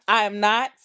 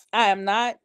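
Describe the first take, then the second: No difference in how they are said.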